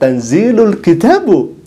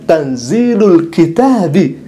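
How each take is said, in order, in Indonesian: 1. Kata terakhir berakhir dengan vokal 'u'. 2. Kata terakhir berakhir dengan vokal 'i'. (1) "maka bacanya bukan tanzilul kitabu. Keliru Anda" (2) "yang seharusnya dibaca tanzilul kitabi"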